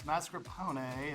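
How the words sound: The word is said with an Italian accent. "if we were pronouncing it like Italiano"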